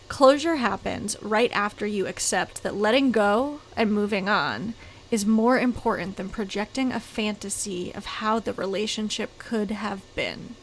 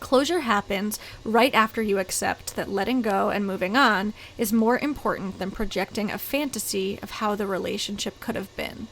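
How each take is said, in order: First: It is read more slowly. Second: It is read at a normal pace.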